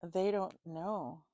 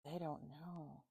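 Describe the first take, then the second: First: Said in the usual way. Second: Much softer repeat, almost to herself; quiet. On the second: Real, not acted. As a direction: murmur it to yourself. Repeats line, then softer.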